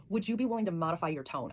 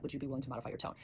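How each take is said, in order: First: Calm, even ask for a gentler tone; calm request. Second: Much softer ask, voice dropping low; softer, quieter request. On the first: Asking her partner in a conflict to soften, calm and even. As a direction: ask it gently, without blame. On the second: Repeating the request to her partner, softer and quieter. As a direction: bring it down to a gentle hush. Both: Shown as a demonstration. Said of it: "tune into the way that I'm speaking".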